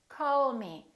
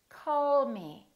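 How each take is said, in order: The two takes are said the same way.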